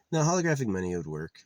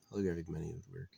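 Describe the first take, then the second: First: Quick, louder first insistence; emphatic insisting. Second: Softer restatement to himself; quiet repeat. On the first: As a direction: push the idea hard and fast. Insists, then repeats it quietly. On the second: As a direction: say it again under the breath. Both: Real, not acted.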